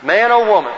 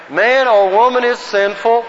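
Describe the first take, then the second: First: Said in the usual way. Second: Higher, measured recitation for a group; group recitation lead. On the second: Shown as a demonstration. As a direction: declaim it so everyone can join in. Leads group reciting in unison.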